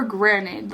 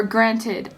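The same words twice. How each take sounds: First: "granted" drawn out, slowly and tentatively; unsure pronunciation. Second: "granted" said as a corrected retry; second pronunciation attempt. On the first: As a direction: stretch out "granted" as if unsure of the word. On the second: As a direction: try "granted" with a more careful ending. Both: Real, not acted. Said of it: "I don't know how to say that word".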